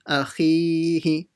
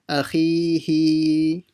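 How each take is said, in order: First: Only the middle vowel is stretched long. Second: The last vowel is stretched long. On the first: The speaker calls it right. "only stretch the maddul asli, nothing else" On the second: The speaker calls it wrong. "don't stretch the last letter by saying akhihi"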